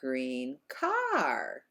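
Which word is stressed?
car. The word car gets the higher pitch. The speaker calls it right. "We say green car"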